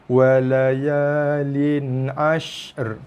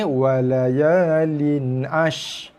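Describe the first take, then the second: First: The sh and the r sound clearly apart. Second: The final r sound is left out. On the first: The speaker calls it right. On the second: The speaker calls it wrong.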